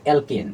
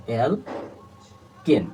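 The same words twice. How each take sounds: First: Said in the usual way. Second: alkane stretched very slowly, syllable by syllable, softer; drawn-out syllables. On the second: Shown as a demonstration. Teacher to students, splitting the word, very slow and drawn out. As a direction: spell out alkane slowly so students hear its parts. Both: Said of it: "দেখো সন্ধি বিচ্ছেদ হবে এরকম".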